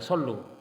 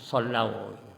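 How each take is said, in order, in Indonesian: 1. Kata itu berakhir dengan vokal 'oo'. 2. Kata itu berakhir dengan diftong 'ow'. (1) "bukan sallu, bukan dhamma sebelum wawu jama'" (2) "fathah sebelum wawu jama' itu sallau"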